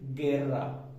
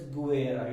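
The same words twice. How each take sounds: First: The u is silent after the g. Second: The u is sounded after the g. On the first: The speaker calls it right. "It is guerra" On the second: The speaker calls it wrong. "We will not call it as guerra"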